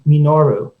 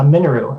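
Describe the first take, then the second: First: All syllables carry roughly equal weight. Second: The first syllable carries the main stress. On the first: The name is treated as a Japanese word. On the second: The name is treated as an English word.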